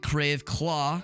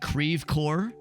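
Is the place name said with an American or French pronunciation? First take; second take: French; American. First: The name has a French-style pronunciation. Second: The name has an Americanized pronunciation. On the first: This is how the name is said in French. The speaker calls it wrong. "It's definitely not Creve Claw" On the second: This is how locals say the name. The speaker calls it right. "because that's how you pronounce it"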